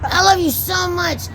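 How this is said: The voice sounds angry and harsh. The speaker calls it wrong.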